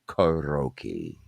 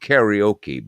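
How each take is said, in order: First: The word has the original Japanese pronunciation. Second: The word has an Americanized pronunciation. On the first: This is the original form of the word. The speaker calls it right. "but it was karaoke ... I just pronounced it properly" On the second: This is the renamed form used in America. The speaker calls it wrong. "it came out karaoke"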